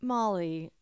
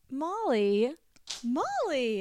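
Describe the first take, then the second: First: Said in the usual way. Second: Molly called out higher, up then down; higher sing-song Molly. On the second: Shown as a demonstration. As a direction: sing the name Molly high and bouncy. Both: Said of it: "can I get a couple Molly?".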